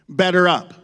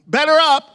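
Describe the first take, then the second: First: It sounds like a direct command to one person. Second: It sounds like calling out the next customer. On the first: You need to do better. "like if I'm talking to Seth, ... That's kind of like an instruction" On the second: It is your turn to be served. "as if you're in a meat market and your ticket's been pulled"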